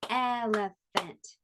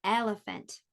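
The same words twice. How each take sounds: First: "Elephant" slowly split el, e, phant; slow "Elephant" with a beat on each syllable; clapped-out syllables. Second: Said in the usual way. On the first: Shown as a demonstration. Teacher asks how many syllables, "Elephant" slowly broken up. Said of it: "How many syllables?". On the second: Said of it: "Oh, here's a good one".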